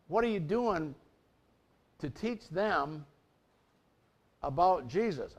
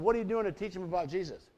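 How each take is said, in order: First: It is said more slowly. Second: It is said at normal speed.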